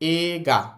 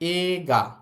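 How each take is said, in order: The two takes are said the same way.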